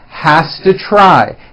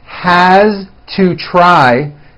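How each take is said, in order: First: The words are blended into one reduced form. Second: The words are said separately and fully.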